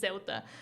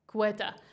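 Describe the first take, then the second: First: The name is said with Spanish pronunciation. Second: The name is said with its vowels swapped. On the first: The speaker calls it right. "Nat says it the Spanish way" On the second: The speaker calls it wrong. "or Cueta. I've also heard that one"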